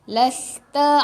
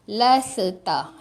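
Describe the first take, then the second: First: The s flows smoothly into the next sound. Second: The s is bounced, adding an extra vowel. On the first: The speaker calls it right. "Las, bagi dia mengalir je" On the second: The speaker calls it wrong. "Dia akan baca laseta... tak mau laseta"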